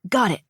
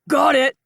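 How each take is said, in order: First: It is said at a very quiet volume. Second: It is said at a loud volume. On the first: "Too quiet, but close" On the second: "Theo said at the same volume"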